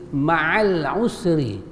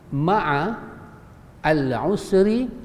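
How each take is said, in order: First: The words are linked, with the 'a' of 'al' dropped. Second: The words are separated, with 'al' said in full. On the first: "ma'al kan bacaan dia ma'al" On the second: "Tapi kalau kita pisahkan"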